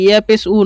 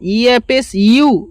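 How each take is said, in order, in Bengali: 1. শেষ সিলেবলটি শুধু একটি u ধ্বনি। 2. শেষ সিলেবলটি একটি y ধ্বনি দিয়ে শুরু হয়। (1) "ইয়া পেস উ নয়"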